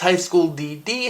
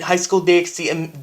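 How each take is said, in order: First: The two Ds are said with nothing between. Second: An X is said between the two Ds. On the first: "technically the title of this anime is pronounced" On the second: "I always pronounce it with the X"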